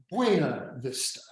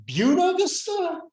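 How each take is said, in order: First: "Buena" said as "BWAY-na" before "Vista"; softer, Spanish-style "Buena Vista"; Spanish-style pronunciation. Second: "Buena" said as "BYOO-na" before "Vista"; anglicized "Buena Vista", starting like "beauty"; anglicized pronunciation. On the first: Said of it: "Is it pronounced". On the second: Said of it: "Is it pronounced Buena Vista". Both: Shown as a demonstration.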